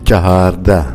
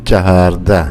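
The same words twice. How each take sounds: No difference in how they are said.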